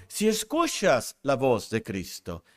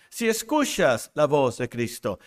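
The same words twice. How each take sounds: The two takes are said the same way.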